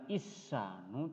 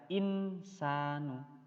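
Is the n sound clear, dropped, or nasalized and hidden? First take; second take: dropped; clear. First: The n sound is dropped completely. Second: The n sound is pronounced fully and clearly. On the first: "tidak hilang" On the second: "tidak dibaca insanu"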